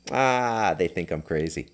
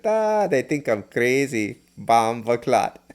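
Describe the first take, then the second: First: Said in the usual way. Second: Slow, higher Jamaican patois imitation; a friend's Jamaican patois, slow and lifted; thick Jamaican patois. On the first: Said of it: "And he speaks English too". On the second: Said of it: "In this thick patois Jamaican accent".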